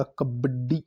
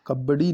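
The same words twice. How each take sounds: First: कबड्डी said "kabad-di", double d; correct pronunciation. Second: कबड्डी said "kabadi", single d; wrong pronunciation. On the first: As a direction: hold the d in कबड्डी. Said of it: "ड double आएंगे". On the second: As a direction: loosen कबड्डी into "kab-ba-di". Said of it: "कबड्डी नहीं होता". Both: Shown as a demonstration.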